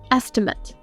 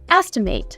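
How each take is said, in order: First: The last syllable sounds like 'mit'. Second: The last syllable sounds like 'mate'. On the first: It is used as a noun. "It can also be used as a noun. In this case, we'd say an" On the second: It is used as a verb. "As a verb, this word is pronounced"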